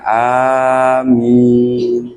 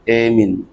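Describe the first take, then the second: First: The first vowel is an open 'a' sound. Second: The first vowel is fronted toward 'e'.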